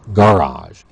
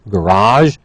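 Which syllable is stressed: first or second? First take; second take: first; second. First: The stress is on the first syllable. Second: The stress is on the second syllable. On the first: This is the anglicized form. "it becomes anglicized with a stress on the first part of the word" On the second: This is the original French form. "we have borrowed a lot of words from French, such as garage"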